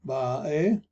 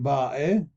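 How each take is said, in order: The two takes are said the same way.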